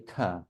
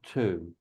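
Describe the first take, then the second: First: The vowel is a short reduced schwa. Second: The vowel is a full long oo. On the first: The speaker calls it right. "We always say ta" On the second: The speaker calls it wrong. "not tu"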